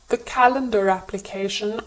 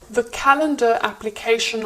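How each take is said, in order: First: An R sound links the two words together. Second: The words are separate with no R sound.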